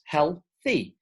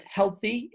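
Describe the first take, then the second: First: "healthy" broken into two slow beats, heal-thy; syllable by syllable. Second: Said in the usual way. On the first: Shown as a demonstration. Teacher counting out two syllables for learners, "healthy" said syllable by syllable. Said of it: "healthy is two syllables". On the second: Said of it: "is two syllables".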